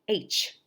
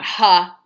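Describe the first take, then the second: First: A bare breathy h with no vowel after it. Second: An h sound followed by an added vowel. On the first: The speaker calls it right. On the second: The speaker calls it wrong.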